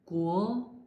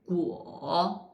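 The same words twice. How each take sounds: First: It is said with the second tone. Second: It is said with the third tone. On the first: "second tongue" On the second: "third tongue"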